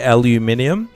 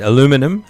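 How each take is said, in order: First: Five syllables, ending with an 'ee-um' sound. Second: Four syllables, ending with a 'num' sound. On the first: "We say it in a strange way" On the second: "in the States, you say"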